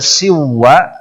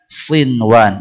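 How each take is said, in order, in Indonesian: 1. Bunyi n melebur ke w. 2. Bunyi n jelas tetap terdengar sebelum w. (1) "Sinwanin tidak dibaca siwa" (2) "tetapi dibaca sinwan"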